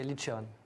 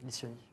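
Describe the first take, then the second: First: The name is said the Corsican way. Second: The name is said the French way. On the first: "la prononciation en corse, c'est Liccione" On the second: "mais en français, c'est Liccioni"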